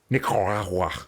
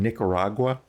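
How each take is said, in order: First: It is said with a Spanish-style accent. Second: It is said with a plain English accent. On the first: The speaker calls it wrong. "they say Nicaragua" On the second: The speaker calls it right. "like a normal person who's a native English speaker"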